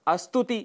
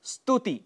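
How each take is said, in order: First: अस्तुति with a short a in front; mispronunciation with added a. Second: स्तुति starting straight on st; no vowel before the s of स्तुति; correct pronunciation. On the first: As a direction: add "a" before the cluster: अस्तुति. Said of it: "हम अस्तुति कह जाते हैं". (अस्तुति, अ जोड़कर अशुद्ध उच्चारण) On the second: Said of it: "जिसके लिए हम अस्तुति कह जाते हैं". (स्तुति का शुद्ध उच्चारण) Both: Shown as a demonstration.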